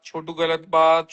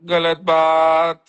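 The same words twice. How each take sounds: First: Put-on mother scolding a child. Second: Drawn-out, louder mock scolding from a mum; slow, loud gentle telling-off as a mother; mother scolding a child. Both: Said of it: "show में शिवेत को उसकी mummy".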